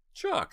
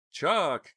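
First: Very high, loud name call; high-pitched reproachful exclamation; dismayed. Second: High, loud cry of a name; high-pitched frightened call; alarmed cry. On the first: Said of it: "said Dina, dismayed". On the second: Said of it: "cried Jade". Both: A narrator's reading.

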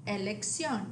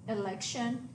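First: Elección as eh-lek-SYON; Spanish elección, stress on the final o; Spanish pronunciation. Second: Election as ih-LEK-shun; English election, stress on LEC; English pronunciation. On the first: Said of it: "accent on the O". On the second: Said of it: "the English word". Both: Shown as a demonstration.

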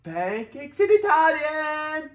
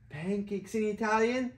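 First: Pancakes in Italian high, slow; excited high singsong. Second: Said in the usual way. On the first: Shown as a demonstration. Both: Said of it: "repeat after child".

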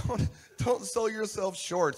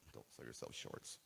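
First: Loud, high and drawn out; emphatic correction. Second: Low, hushed, almost voiceless; muted aside. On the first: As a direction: belt it out slowly, every word driven home. Corrects the saying after "No. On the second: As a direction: drop it to a soft throwaway murmur. Botched saying, redone after a joke. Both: Real, not acted.

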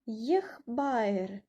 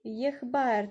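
First: Єхбаєр said slowly; Armenian word yeghbayr. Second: Єхбаєр repeated with a falling end; Armenian word repeated. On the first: Teacher models Єхбаєр with a ye at the start. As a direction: begin Єхбаєр with a clear ye. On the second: Teacher repeats Єхбаєр for students. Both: Shown as a demonstration. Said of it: "тут також ми читаємо є".

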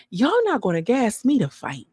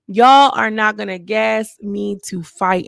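First: Said in the usual way. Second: "Y'all are not gonna gas me to fight" said slowly, each word pressed; slow emphatic repeat. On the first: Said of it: "I want you guys to hear me". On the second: Shown as a demonstration. Host to viewers, slow and emphatic. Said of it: "hear me good".

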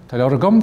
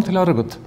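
First: "agam" ending on an M sound; final M. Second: "agat" ending on a T sound, higher pitch; final T. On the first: Teacher contrasts who has the book, final M in "agam". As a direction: close "agam" on a clear M. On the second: Teacher contrasts who has the book, final T in "agat". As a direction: end "agat" on a clear T. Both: Shown as a demonstration. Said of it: "The last letter tells you who has the book".

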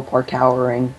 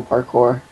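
First: Parkowering said as spelled, park-OW-er-ing; parkowering read literally, rhyming with power; spelling pronunciation. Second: Said in the usual way. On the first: Shown as a demonstration. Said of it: "as Brett would call it". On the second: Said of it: "I'm jungle parkowering, as Brett would call it".

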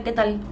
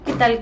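First: Lower, softer echo of the greeting; softer repeat. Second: Said in the usual way. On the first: Real, not acted. Repeating her greeting to chat, lower and softer. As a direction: drop it down, almost to yourself.

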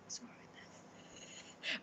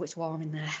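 First: Very soft, slow whisper. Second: Said in the usual way. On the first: Real, not acted. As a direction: whisper it slowly to yourself. Repeats the remark in a whisper.

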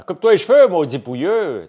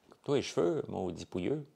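First: Loud, high scolding yell; shouting. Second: Softer, playful scolding; light teasing. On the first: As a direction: bark it at him, furious. Mock scolding of a scruffy guy. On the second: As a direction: tease him, half-joking. Same insult repeated more lightly. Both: Acted.

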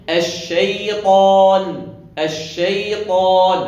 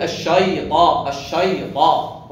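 First: الشيطان with thin "shay", heavy "taa", long final aa; correct light sheen. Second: الشيطان with the "shay" made heavy and dark; wrongly thickened sheen. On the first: Teacher models the correct word, الشيطان slow with light sheen. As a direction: draw out الشيطان slowly, only the ط thickened. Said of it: "صحيح". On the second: Teacher imitates a beginner's error, الشيطان with heavy sheen. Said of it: "علاه فخمها". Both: Shown as a demonstration.

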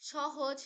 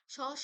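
First: Said in the usual way. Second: সহজ broken in two, a long স, then হজ; split into syllables. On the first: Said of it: "সহজ শব্দটি দল বিশ্লেষণ করলে". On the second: Shown as a demonstration. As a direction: stretch স, pause, then say হজ. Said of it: "দল বিশ্লেষণ করলে আমরা পাবো". (সহজ দলে ভেঙে, স টেনে বলা)

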